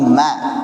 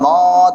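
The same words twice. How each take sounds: First: The syllable ma sounds light and thin. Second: The syllable ma sounds heavy and thick. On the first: The speaker calls it right. "tapi ma. Tipis ma" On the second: The speaker calls it wrong. "jangan ma"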